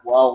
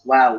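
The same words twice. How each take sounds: First: The w sound is thick and heavy. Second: The w sound is thin and light. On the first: The speaker calls it wrong. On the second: The speaker calls it right. "Wah-nya lebih tipis"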